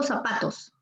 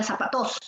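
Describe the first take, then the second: First: Said in the usual way. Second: "zapatos" misstressed as za-pa-TÓS; stress on last syllable. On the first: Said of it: "diría zapatos". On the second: Shown as a demonstration. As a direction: shift the weight onto the final TOS of "zapatos". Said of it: "porque si fuese aguda".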